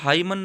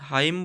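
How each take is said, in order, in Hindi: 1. अंतिम n की ध्वनि बोली जाती है। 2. अंतिम n की ध्वनि साइलेंट होती है। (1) "हाइमन नहीं" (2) "हाइम बोला जाता है"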